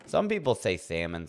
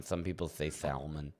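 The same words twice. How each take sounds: First: "salmon" said SAM-un, the L silent; plain "salmon" as SAM-un; salmon without the L. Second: "salmon" said SAL-mun, the L sounded; softer, spelling out SAL-mun for "salmon". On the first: Streamer to chat, contrasting ways to say "salmon", silent L. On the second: Streamer to chat, the other "salmon", L pronounced, softer. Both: Shown as a demonstration.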